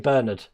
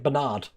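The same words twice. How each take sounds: First: It is said the British way. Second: It is said the American way.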